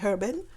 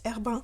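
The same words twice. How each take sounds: First: The name is said with English pronunciation. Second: The name is said with French pronunciation. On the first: "You can obviously say Herbin" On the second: "that's how the French call it"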